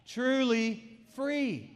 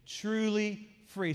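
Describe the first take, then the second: First: It is said more loudly. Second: It is said at an ordinary volume. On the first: "Say it louder" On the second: "Say it with me"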